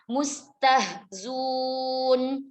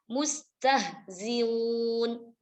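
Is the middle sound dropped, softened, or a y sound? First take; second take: dropped; softened. First: The hamza is dropped and z takes an u. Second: The hamza is softened between a catch and vowel. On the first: "huruf hamzahnya dibuang" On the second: "bitashilil hamzati baina baina"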